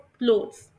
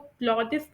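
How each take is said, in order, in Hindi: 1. यह शब्द एक सिलेबल में बोला जाता है। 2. यह शब्द दो सिलेबल में बोला जाता है। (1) "इसे प्रोनाउंस करते हैं क्लोथ्स।" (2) "ये बिल्कुल गलत तरीका है।"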